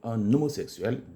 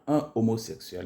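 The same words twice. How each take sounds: First: The n is linked to the next vowel. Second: The n is not linked to the next vowel. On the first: The speaker calls it right. "mais on dit un homosexuel" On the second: The speaker calls it wrong. "on ne dit pas un homosexuel"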